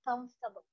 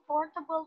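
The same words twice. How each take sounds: First: The middle 'or' sound is dropped. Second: The middle 'or' sound is fully pronounced. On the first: "without the OR" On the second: "comfortable is also correct"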